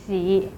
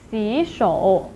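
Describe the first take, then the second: First: 洗 in a low dipping third tone. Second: 洗 rising, then 手 low in 洗手; second-tone change. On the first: Teacher gives the supposed tone of the word, low third tone. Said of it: "pronounced as the third tone". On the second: Teacher shows the corrected pronunciation, rising second then third tone. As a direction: lift 洗 upward before the low 手. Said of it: "So it should be pronounced as". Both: Shown as a demonstration.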